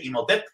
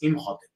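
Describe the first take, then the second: First: The h sound in the middle is silent. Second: The h sound in the middle is pronounced. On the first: This is how most people commonly say it. The speaker calls it wrong. "casi todo el mundo le dice Imhotep ... pensamos que no se pronuncia el H" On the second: This is the original form of the name. The speaker calls it right. "sabemos que el nombre original es Imhotep"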